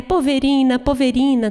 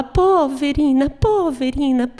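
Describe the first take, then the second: First: Said in the usual way. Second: Poverina drawn out slowly and plaintively; slow, mock-pitiful poverina. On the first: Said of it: "ela canta". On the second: Shown as a demonstration. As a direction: stretch each poverina like a sigh of pity. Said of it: "Ela fala".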